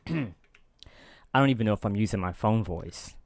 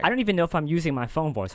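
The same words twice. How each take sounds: First: The voice is pitched lower, deliberately kept down. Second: The voice is pitched higher, in a natural register.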